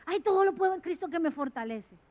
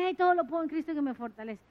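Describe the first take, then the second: First: Mock careless quote. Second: Fast, glib recitation of todo lo puedo; mocking fast recital like an amulet; hurried mock quote. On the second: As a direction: rattle it off like a charm. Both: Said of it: "utilizado como un amuleto".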